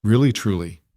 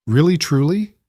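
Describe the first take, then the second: First: Calm, falling reassurance; warm confirmation. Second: Put-on hopeful child. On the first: Acted. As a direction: gently confirm it. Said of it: "Mara confirmed". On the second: A narrator's reading.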